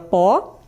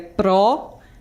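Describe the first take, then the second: First: The syllable is said without the R sound. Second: The syllable is said with the R sound. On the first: The speaker calls it wrong. "Perdeu aí o R na palavra pó" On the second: The speaker calls it right. "que no caso é pró"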